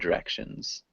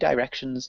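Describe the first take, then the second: First: The first vowel is a short 'i' sound. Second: The first vowel is a long 'eye' sound. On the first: "in the U S, we would say directions. so it's got that short-ish I sound" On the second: "it's very British to say direction"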